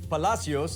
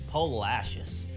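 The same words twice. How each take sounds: First: The name gets a Spanish-style pronunciation. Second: The name gets a Texan local pronunciation. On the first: This is how an outsider would expect it. The speaker calls it wrong. "Not Palacios like you might think" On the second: This is how the locals say it. The speaker calls it right. "the Texified Palacios"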